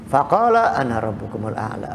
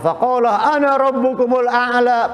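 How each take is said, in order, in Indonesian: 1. Diucapkan dengan suara pelan dan direndahkan. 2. Diucapkan dengan suara biasa yang normal, tidak dipelankan. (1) "dengan suara perlahan" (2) "Baca-baca aja biasa"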